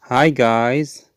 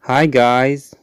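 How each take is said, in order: Both takes have the same delivery.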